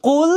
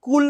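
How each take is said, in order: First: "কুল" drawn out with a heavy back-of-throat q; correct Arabic qaf. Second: "কুল" with an ordinary front k; wrong light k. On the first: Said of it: "এর উচ্চারণ কুল বললে কি হবে?". ("কুল" শব্দে গলার গোড়া থেকে ভারী ক্বাফ) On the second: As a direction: demonstrate the error, "কুল" with plain Bengali k. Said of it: "কুল বললে কি হবে? ভুল হবে". ("কুল" শব্দে হালকা বাংলা ক) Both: Shown as a demonstration.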